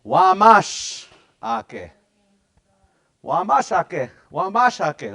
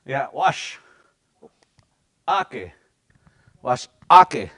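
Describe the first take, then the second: First: Wamash ake said slowly and loud, first part stressed; loud, strong Wamash ake; emphatic. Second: A pause after wash, then ake punched loud; with emphasis. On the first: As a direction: belt out Wamash ake like a chant. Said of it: "wamash is the big word you gotta use". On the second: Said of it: "You gotta say this with some emphasis". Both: Shown as a demonstration.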